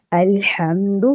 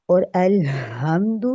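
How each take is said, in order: First: الحمد with the throaty ح rubbed from mid throat; correct alhamd. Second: الحمد with a light ہ, slow; contrasting alhamd. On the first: Teacher showing the correct alhamd. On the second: Teacher contrasting the wrong alhamd. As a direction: say الحمد with a plain h, slowly. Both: Shown as a demonstration. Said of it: "کیا، کتنا فرق ہے".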